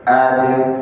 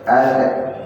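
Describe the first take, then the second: First: The final consonant is released with a bounce. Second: The final consonant is held without a bounce. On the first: The speaker calls it right. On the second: The speaker calls it wrong.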